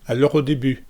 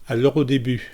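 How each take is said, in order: The two takes are said the same way.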